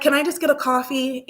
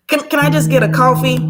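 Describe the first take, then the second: First: Said in the usual way. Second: Fast and louder, tumbling out; hurried awkward coffee order; flustered rushed request. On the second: Retold or imitated. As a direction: blurt it to escape the moment. Rushing past an awkward moment.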